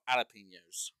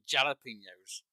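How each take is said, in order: First: The word starts without a J sound. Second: The word starts with a clear J sound. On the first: The speaker calls it wrong. "instead of jalapenos" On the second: The speaker calls it right. "It's not silent. It's pronounced jalapenos"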